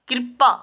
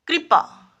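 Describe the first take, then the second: First: कृपा as "kirpa"; कृपा said as किरपा; mispronounced. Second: Said in the usual way. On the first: Shown as a demonstration. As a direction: move the r in कृपा after the i. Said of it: "कृपा नहीं". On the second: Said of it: "सही शब्द है कृपा".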